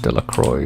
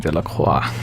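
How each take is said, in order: First: The name is said with English sounds. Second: The name is said with French sounds. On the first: "Everyone says" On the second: "if you were actually to say that in French"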